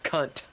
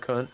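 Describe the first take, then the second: First: The final T sound is clearly pronounced. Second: The final T sound is dropped. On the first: The speaker calls it right. "you have to pronounce the T" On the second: The speaker calls it wrong. "You you said it like all Kentucky"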